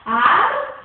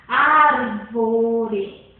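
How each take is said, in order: First: "Árvore" split into ár, vo, re with pauses, first syllable loud. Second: Said in the usual way. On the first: Shown as a demonstration. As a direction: break "Árvore" into three separate syllables, punching the ÁR. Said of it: "Vamos colocar sílaba em sílaba". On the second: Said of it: "Vamos colocar sílaba".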